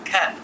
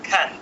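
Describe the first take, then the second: No difference in how they are said.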